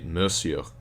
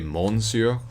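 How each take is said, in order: First: The first syllable has no n sound. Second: The n sound in the first syllable is pronounced. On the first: The speaker calls it right. "It's actually monsieur" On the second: The speaker calls it wrong. "They'll pronounce the n"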